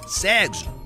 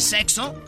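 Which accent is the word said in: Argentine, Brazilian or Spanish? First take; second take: Brazilian; Spanish. First: It is said in a Brazilian accent. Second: It is said in a Spanish accent.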